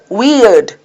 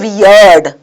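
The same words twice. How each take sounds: First: The word is said as one syllable. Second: The word is drawn out into two syllables. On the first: The speaker calls it right. "So it's one syllable" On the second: The speaker calls it wrong. "We don't say weird"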